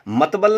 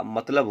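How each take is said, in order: First: मतबल with 'b' and 'l' swapped, matbal; mispronounced word. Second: मतलब with 'l' before 'b', matlab; correct pronunciation. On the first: Teacher mimicking a common slip, मतबल as matbal. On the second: Teacher correcting the slip, मतलब as matlab. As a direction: say मतलब lower and softer, ending in 'lab'. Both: Shown as a demonstration. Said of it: "मतलब होता है".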